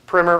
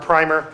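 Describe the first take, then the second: First: The word is said in an American way. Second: The word is said in an English way.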